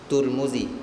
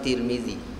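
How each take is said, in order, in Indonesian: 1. Dua suku kata pertama memiliki vokal 'u' dan 'u'. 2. Dua suku kata pertama memiliki vokal 'i' dan 'i'. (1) "Ada yang boleh baca tiga" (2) "Ada yang boleh baca tiga"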